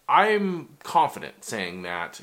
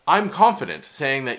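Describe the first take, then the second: First: The voice sounds hesitant and unsure. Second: The voice sounds firm and confident. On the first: The speaker calls it wrong. "I know that didn't sound confident" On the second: The speaker calls it right. "let me restate that"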